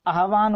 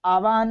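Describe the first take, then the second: First: आह्वान as aah-vaan; h before v. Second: आवाहन as aa-vaan, v first; v before h. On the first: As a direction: sound the h ahead of "vaan" in आह्वान. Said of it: "आह्वान होता है". (आह्वान में "ह" पहले बोलें) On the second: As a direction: say आवाहन with the v ahead of any h. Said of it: "आवाहन नहीं होता". (आवाहन में "वा" पहले) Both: Shown as a demonstration.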